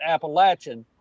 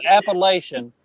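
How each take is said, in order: First: "Appalachian" said app-uh-LATCH-un; short-A "Appalachian", ending in -chun; LATCH pronunciation. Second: "Appalachian" said app-uh-LAY-shun; long-A "Appalachian", ending in -shun; LAY pronunciation. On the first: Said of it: "type out L A T C H". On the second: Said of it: "type out L A Y". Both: Shown as a demonstration.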